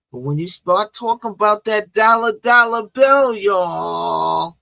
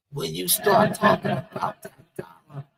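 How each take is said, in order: First: Louder and higher, stretch out dollar bill; hyped-up money pitch. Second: Said in the usual way. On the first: Acted. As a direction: sell the word dollar like a hype man. Hyping up talk of money.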